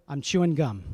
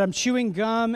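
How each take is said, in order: First: Said in the usual way. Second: Higher, louder guilty fib; dad's transparent lie, higher and louder. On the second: Retold or imitated. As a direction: oversell the lie, clearly caught out. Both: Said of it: "she knows from my voice I'm probably lying".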